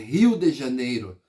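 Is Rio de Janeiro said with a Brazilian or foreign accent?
Brazilian. It is said with a native Brazilian accent. This is how locals say the city's name. The speaker calls it right. "é Rio de Janeiro"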